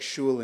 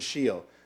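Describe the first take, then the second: First: The vowel is an oo sound. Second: The vowel is an ee sound.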